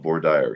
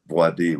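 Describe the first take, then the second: First: It is pronounced the Texan way. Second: It is pronounced the French way.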